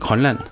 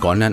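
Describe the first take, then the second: First: The word begins with a voiceless K sound. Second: The word begins with a voiced G sound. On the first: "De vil meget gerne gøre det til K" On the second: "der hedder det ikke Grønland"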